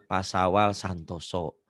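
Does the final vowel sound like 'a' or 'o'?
o. The final vowel is an 'o' sound. "Huruf Jawa itu kan kayak"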